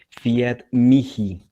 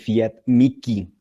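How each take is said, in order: First: The h in mihi is not said as k. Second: The h in mihi is said as k. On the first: This is the classical Latin pronunciation. "esa pronunciación es del latín clásico" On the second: This is the ecclesiastical Latin pronunciation. "La H se pronuncia como una K"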